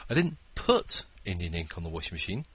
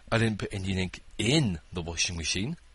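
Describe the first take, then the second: First: The word "put" is stressed. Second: The word "in" is stressed. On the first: It got there by another action. "I threw it in there" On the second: It went somewhere other than inside. "I poured it on top"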